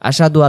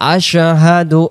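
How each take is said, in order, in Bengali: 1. হ-এর উচ্চারণ ছাড়া বলা হয়। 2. স্পষ্ট হ-এর উচ্চারণসহ বলা হয়। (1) "এই শব্দটা অনেকে আমরা বলে ফেলি আশাদু।" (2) "এখানে স্পষ্ট করে আমরা বলবো ... উচ্চারণ আশহাদু।"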